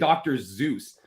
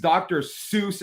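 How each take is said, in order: First: The name begins with a z sound. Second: The name begins with an s sound. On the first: This is how people here say it. The speaker calls it wrong. "we say it the Canadian way" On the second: This is the proper way to say it. The speaker calls it right. "It's an S"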